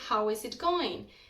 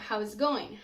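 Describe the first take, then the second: First: Each word is pronounced clearly and separately. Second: The words are smashed together into one reduced chunk. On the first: "the phrase" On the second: "sounds more like"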